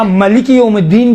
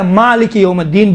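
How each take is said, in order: First: مالک with a short first vowel, "maliki" as "mə-li-ki"; "məliki yawmid-deen", no long aa in مالک; short-vowel variant reading. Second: مالک with a long "maa"; "maaliki yawmid-deen" with long aa in مالک; long-vowel reading. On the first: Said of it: "ملکی بھی پڑھا گیا ہے". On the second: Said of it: "مالک یوم الدین بہتر ہے ملکی سے". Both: Shown as a demonstration.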